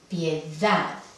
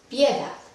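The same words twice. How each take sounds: First: The stress is on the last syllable. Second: The stress is on the first syllable. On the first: The speaker calls it right. "Ahí es la sílaba tónica" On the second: The speaker calls it wrong. "Intentamos aquí"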